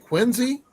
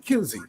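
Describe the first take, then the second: First: The word begins with a kw sound. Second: The word begins with a plain k sound. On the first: "with a qu" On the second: "Q it can also be a K sound sometimes"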